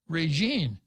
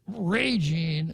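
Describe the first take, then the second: First: The stress is on the last syllable. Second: The stress is on the first syllable. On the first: The speaker calls it wrong. "but that would be wrong" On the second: The speaker calls it right. "I have to put the stress on the first syllable"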